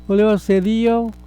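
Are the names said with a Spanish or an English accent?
English. The names are said with an English accent.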